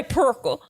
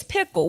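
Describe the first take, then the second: First: "perkle", pickle said as PUR-kle; "perkle" with a Memphis "ur" vowel; Memphis pronunciation. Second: "pickle" said with a short i, no R; "pickle" in standard pronunciation. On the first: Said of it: "talk like that from Memphis". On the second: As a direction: say "pickle" as PIK-ul. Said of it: "No, it's pickle". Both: Retold or imitated.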